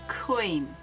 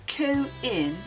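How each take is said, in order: First: One vowel glides into the other in one syllable. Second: The two vowels are split into separate syllables. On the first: The speaker calls it right. "That glide between the O and the I" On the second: The speaker calls it wrong. "it's not co-in"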